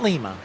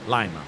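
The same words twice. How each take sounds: First: Lima is said unlike the bean's name. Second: Lima is said like the bean's name. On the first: The speaker calls it wrong. "not Lima" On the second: The speaker calls it right. "like the bean"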